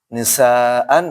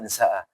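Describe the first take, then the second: First: The word ends with an n sound. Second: The word ends on a long open vowel. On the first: The reading continues without stopping. "baca full saja" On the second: The reader stops at this word. "dibaca nisa"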